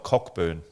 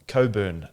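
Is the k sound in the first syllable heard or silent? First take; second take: heard; silent. First: The first syllable ends with a k sound. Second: The first syllable has no k sound. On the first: This follows the written spelling. "but it's spelt" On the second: This is how locals actually say the name. "apparently it's called"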